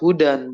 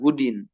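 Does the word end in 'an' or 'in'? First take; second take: an; in. First: The word ends with the vowel sound 'an'. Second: The word ends with the vowel sound 'in'. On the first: The speaker calls it right. "ya tetap hudan" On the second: The speaker calls it wrong. "bukan hudin"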